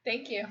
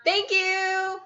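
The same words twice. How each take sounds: First: Quiet, short "thank you"; anticlimactic thanks. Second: High, drawn-out "thank you"; restrained cheer. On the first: Co-host thanking a donor right after whooping, anticlimactic and soft. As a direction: let the cheer drop into a small thanks. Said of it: "That was kind of anticlimactic". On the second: Co-host thanking a donor near bedtime, restrained high-pitched cheer. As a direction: cheer the thanks without shouting. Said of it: "trying not to be super loud". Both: Real, not acted.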